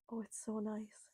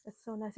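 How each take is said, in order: First: Breathy hushed whisper, savouring it. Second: Said in the usual way. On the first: Real, not acted. Host whispering to herself about the rain, hushed whisper. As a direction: whisper it to yourself like a secret delight.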